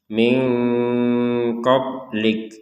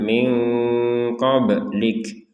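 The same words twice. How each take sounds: First: The b sound is held flat without bounce. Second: The b sound is released with a bounce. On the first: The speaker calls it wrong. "jangan sekedar min qablik" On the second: The speaker calls it right. "kalau ba sukun dipantulkan"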